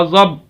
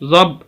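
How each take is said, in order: No difference in how they are said.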